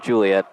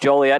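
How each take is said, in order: First: The first syllable is said like 'Ju'. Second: The first syllable is said like 'Jo'. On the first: The speaker calls it wrong. "never Juliet" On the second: The speaker calls it right. "It's always Joliet"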